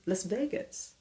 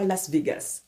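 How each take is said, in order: First: Las Vegas with raised VAY and reduced ending; "lahs VAY-guhs", lifted; American pronunciation. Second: Las Vegas French-style with pure é and full "gas"; "lass vé-gass", evenly; wrong pronunciation. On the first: Teaching the American Las Vegas, stressed VAY. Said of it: "on dit Las Vegas". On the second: Showing what not to say, French-style Las Vegas. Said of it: "on ne dit pas Las Vegas". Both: Shown as a demonstration.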